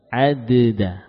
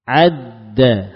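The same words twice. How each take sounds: First: The first d is released before the second. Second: The two d sounds merge into one held stop.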